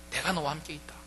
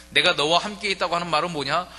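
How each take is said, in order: First: 내가 너와 함께 있다 said softly, gently, as a quiet promise; a tender whisper of comfort to a resentful son; soft reassurance. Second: 내가 hit louder and higher, rising to the end; preacher pressing 내가 on the congregation, loud; stress on 내가. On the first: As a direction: ease off and let the promise land softly. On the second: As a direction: punch 내가 like a preacher driving the point home. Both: Shown as a demonstration.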